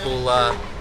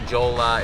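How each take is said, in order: First: It begins with an H sound. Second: It begins with a J sound and an O vowel. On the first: "it's not Hula" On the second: "it's not Jola"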